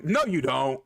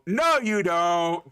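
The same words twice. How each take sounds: First: Said in the usual way. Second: "No, you don't." slow and louder, each word hammered; emphatic denial. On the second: Acted. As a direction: drag out "No, you don't." loud and firm. Shutting down friends' claim.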